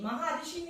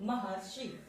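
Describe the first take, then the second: First: महर्षि split apart as maha-rishi; teacher's wrong take of महर्षि, maha-rishi; wrong pronunciation. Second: महर्षि as one word, ma-har-shi, with the r joined; teacher's correct take of महर्षि, soft and settled; correct pronunciation. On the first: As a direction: say महर्षि the wrong way, as two words. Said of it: "महर्षि नहीं". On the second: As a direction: say महर्षि right, the r sliding into shi. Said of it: "उच्चारण में महर्षि". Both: Shown as a demonstration.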